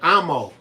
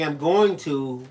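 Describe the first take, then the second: First: The words are squeezed into two short syllables. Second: Every word is said fully and separately. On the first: "we say "amo." ... short for "I'm going to."" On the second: "Instead of saying"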